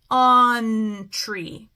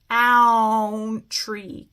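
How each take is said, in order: First: The first vowel sounds like 'uh'. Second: The first vowel sounds like 'ow'. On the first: The speaker calls it right. "I'm going to say uh" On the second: The speaker calls it wrong. "If I try an ow here"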